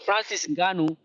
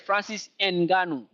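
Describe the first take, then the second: First: Ngannou begins with one blended ng sound. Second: A separate N sound comes before Ngannou. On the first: "the sound of uh, ny" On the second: "They read the N because they don't have the sound"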